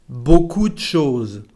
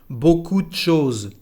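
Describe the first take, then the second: No difference in how they are said.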